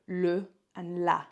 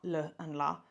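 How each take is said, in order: First: The vowels are clear and fully distinct. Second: The vowels are weakened toward an uh sound. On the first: The speaker calls it right. "it's le and la" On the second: The speaker calls it wrong. "that lazy English mouth, like it's not le and la"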